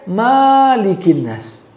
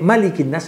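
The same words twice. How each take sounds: First: The first vowel of Malik is long. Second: The first vowel of Malik is short. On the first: God is the owner of mankind. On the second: God is the king of mankind.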